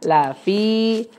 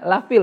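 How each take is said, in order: First: The word ends on a vowel, no L. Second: The word ends with an added L sound. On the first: The speaker calls it right. "padahal lafi ya" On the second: The speaker calls it wrong. "padahal enggak ada enggak ada lamnya tuh"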